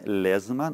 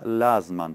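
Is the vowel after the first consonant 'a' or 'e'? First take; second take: e; a. First: The first vowel is an 'e' sound. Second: The first vowel is an 'a' sound. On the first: The speaker calls it wrong. "Не Лезман" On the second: The speaker calls it right. "а Лазман"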